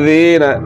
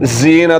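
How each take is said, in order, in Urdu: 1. پہلا حرف نرم ہے، اس میں کوئی سیٹی جیسی آواز نہیں۔ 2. پہلا حرف سیٹی بجانے والی z آواز ہے۔ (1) "رائٹ" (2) "رونگ"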